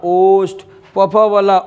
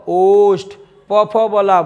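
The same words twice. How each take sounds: The two takes are said the same way.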